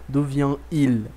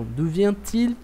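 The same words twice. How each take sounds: First: "d'où vient-il" sem o som de T, vien-il; no liaison. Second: "d'où vient-il" com T claro, vien-til; with liaison. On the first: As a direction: say "vient-il" with no t linking. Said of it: "soa horrível". ("vient-il" dito sem a ligação do T) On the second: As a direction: link the T in "vient-il". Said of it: "a gente tem que fazer som de T". ("vient-il" com a ligação do T bem marcada) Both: Shown as a demonstration.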